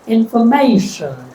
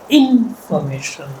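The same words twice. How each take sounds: First: The stress is on the third syllable. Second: The stress is on the first syllable. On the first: "If I stress the third" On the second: "if I stress the first syllable"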